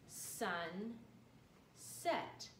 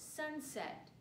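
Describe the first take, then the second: First: A pause separates the two syllables. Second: No pause separates the two syllables. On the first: "Let's bring that first syllable back" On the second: "If we say it fast, we get the word sunset without any spaces"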